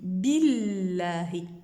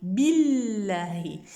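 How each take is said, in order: The two takes are said the same way.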